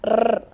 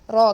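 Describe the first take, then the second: First: The r has a long, strong trill. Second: The r has a short, controlled trill. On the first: The speaker calls it wrong. "You should not give extra vibration to the letter. It is not rrr" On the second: The speaker calls it right. "It is raw. Control your vibration of the tongue"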